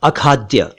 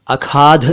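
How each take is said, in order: First: अखाद्य as "akhaad-dya", plain d plus y; careful अखाद्य without aspiration; correct pronunciation. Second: अखाध ending in aspirated dh, no y; mispronunciation. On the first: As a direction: finish अखाद्य on a clear dya. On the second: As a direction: say अखाध as "akhaadh". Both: Shown as a demonstration. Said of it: "नहीं".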